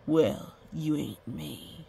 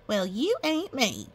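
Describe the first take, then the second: First: Slow, low, self-assured retort; cocky blacksmith. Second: Higher, drawn-out boastful retort; cocky rancher. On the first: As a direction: stretch it out like a proud blacksmith. Cocky blacksmith answers the mayor. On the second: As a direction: brush off the warning with slow swagger. Cocky rancher answers the blacksmith. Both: A narrator's reading.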